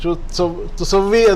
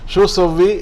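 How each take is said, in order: First: A 'tu' syllable is said before 'sawwi'. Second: The 'tu' syllable is left out before 'sawwi'. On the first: This is the full, proper form. "എന്നാണ് ശരിക്ക്" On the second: This is the everyday spoken form. "സാധാരണ ഉച്ചാരണത്തിൽ അത് തുസവ്വി എന്ന് പറയില്ല"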